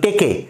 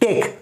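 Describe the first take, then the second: First: An extra vowel is sounded at the end. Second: The word ends on the consonant, no vowel. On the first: The speaker calls it wrong. "বলছি না কিন্তু টেকে" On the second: The speaker calls it right.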